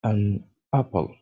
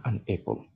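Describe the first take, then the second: First: "An apple" with an open a, like "an ap-pl"; correct pronunciation. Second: "an apple" with an e sound, like "an epple"; wrong pronunciation. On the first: Teacher models the right form for French learners, careful open a. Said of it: "Et non pas an apple". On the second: Teacher shows learners the form to avoid, softer, "epple". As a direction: say "apple" as "epple" to show the mistake. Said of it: "Et non pas". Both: Shown as a demonstration.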